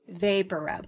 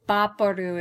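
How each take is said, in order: First: It is pronounced the English way, starting with v. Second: It is pronounced the Spanish way, starting with b.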